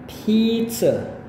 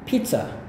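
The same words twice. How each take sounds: First: It is said slowly, syllable by syllable. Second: It is said quickly, with a reduced ending.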